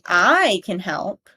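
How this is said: The stress is moved to another word. "it's changing the emphasis"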